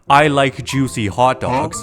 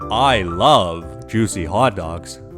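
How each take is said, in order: First: It is said at normal speed. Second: It is said slowly.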